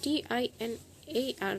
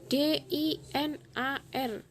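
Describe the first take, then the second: First: The letters are named with English letter sounds. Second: The letters are named with Indonesian letter sounds. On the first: "Dibacanya sesuai dengan bahasa Inggrisnya huruf per huruf" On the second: "kalau dalam bahasa Indonesia dibaca D I N A R"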